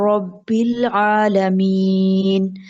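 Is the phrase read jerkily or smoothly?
smooth. It is read smoothly in one flow. The speaker calls it right. "Smoothly आपने पढ़ना है। आपने एक ही साउंड में पढ़ना है"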